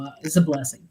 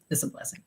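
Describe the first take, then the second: First: Said in the usual way. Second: Soft, breathy echo to herself; whispered repeat. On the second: Real, not acted. Mom whispering her gratitude for her kids, quietly. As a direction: whisper it again, almost to herself. Repeats the phrase, second softer.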